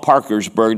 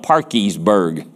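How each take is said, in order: First: The second syllable is said with an r sound. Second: The second syllable is said with an ee sound. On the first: This is how outsiders say the name. "they don't call it Parkersburg" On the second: This is how the locals say the name. "They call it Parkiesburg"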